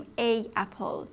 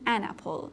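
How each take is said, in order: First: "a apple" with A as a separate vowel before apple; wrong article demo. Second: "an apple" with an N linking into apple; correct article demo. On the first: Teacher shows students the forbidden form, wrong article demo. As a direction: say "a apple", two vowels meeting with no N between. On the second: Teacher shows students the required form, correct article demo. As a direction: say "an apple", the N bridging the two vowels. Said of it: "باید بگیم an apple". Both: Shown as a demonstration.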